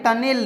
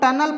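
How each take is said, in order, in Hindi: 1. दूसरा स्वर एक 'eh' है। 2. दूसरा स्वर एक छोटा 'uh' है। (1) "टनेल नहीं" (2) "तो इसको हम लोग टनल पढ़ेंगे"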